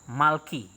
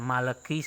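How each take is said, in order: First: L and K are joined with no vowel between. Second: A short vowel is heard between L and K. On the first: The speaker calls it right. "Kenapa dibaca malki" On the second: The speaker calls it wrong. "Tidak dibaca maleki seperti ini"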